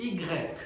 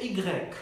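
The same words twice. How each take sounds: Both takes have the same delivery.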